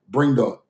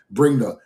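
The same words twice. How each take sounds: The two takes are said the same way.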